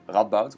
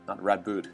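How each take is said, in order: First: The name is said with Dutch pronunciation. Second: The name is said with English pronunciation. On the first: The speaker calls it right. "that's my Dutch pronunciation of Radboud" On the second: The speaker calls it wrong.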